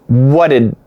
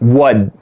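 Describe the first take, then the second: First: Both words are said, making two syllables. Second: The words merge into one syllable ending in d. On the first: "perfect pronunciation is whatted" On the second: "we're gonna make it one and we're gonna have wud"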